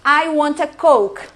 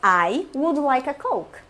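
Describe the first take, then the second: First: Slow, louder, blunt demand with a hammed-up attitude; exaggerated pushy customer demanding a Coke; rude demand. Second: Slow, courteous and measured order; well-mannered customer ordering a Coke politely; polite request. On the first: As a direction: bark the order like a rude customer. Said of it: "vou fazer o teatro". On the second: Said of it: "Outra, voltei". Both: Shown as a demonstration.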